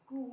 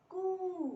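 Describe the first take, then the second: First: कू with a brief oo; short u vowel. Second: कू much higher, the oo drawn out; long u vowel. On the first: Teacher drilling the k series, short vowel in कू. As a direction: say कू short, without holding it. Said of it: "छोटी ऊ की". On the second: Teacher drilling the k series, long vowel in कू. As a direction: hold the vowel in कू. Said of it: "बड़ी ऊ की मात्रा". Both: Shown as a demonstration.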